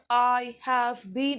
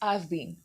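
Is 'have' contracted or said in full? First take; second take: full; contracted. First: The word 'have' is said in full. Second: The word 'have' is contracted to 've. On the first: "It's not I have been" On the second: "it's I've been"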